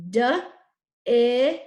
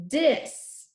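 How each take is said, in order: First: "D-is" as separate loud sounds: duh, ih, sss; "D-is" segmented with a long hissed s; sounded out. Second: Said in the usual way. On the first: Shown as a demonstration. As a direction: tap out "D-is" sound by sound, loudly. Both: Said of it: "Let's tap the first syllable".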